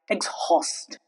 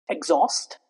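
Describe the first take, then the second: First: The H sound is pronounced in the word. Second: The H sound is silent in the word. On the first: The speaker calls it wrong. "if we try to pronounce uh, the word exhaust like we pronounced exhale, then it would sound like exhaust, which is obviously wrong" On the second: The speaker calls it right. "Next rule for H to go silent is when it occurs after letters C, G, R, and X"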